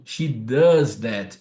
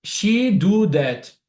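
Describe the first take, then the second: First: Very slow, lower "She does that"; correct version, slow. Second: Slow and a bit louder, the wrong "She do that"; wrong version, slow. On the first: Teacher gives the correct sentence the ear asks for, slow. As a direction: say "She does that" slowly as the fix. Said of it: "É isso que seu ouvido vai pedir". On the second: Teacher gives the wrong sentence the ear rejects, slow. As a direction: say "She do that" slowly as the error. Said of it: "O seu ouvido não vai permitir". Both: Shown as a demonstration.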